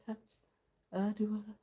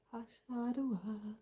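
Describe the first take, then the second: No difference in how they are said.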